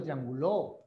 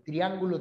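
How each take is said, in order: First: "trianguló" stressed on the final "ló"; stress on last syllable. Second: "Triángulo" stressed on "án"; stress on second syllable. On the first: ("trianguló" con acento en "ló") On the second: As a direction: hit "án" in "Triángulo". ("Triángulo" con acento en "án") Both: Shown as a demonstration. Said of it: "No es lo mismo rala que sala".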